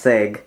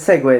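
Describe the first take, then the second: First: The word is cut to one syllable. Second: The word is said with both syllables. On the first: The speaker calls it wrong. "a shortening uh, my pronunciation of the word to just seg" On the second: The speaker calls it right. "I said segue this time"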